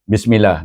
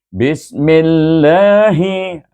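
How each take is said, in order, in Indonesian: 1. Dibaca cepat, L ganda dipotong pendek. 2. Dibaca lebih lambat, L ganda ditahan. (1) "Selalu orang buat silap, nak cepat" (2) "Bismil dulu. Mil, lahi"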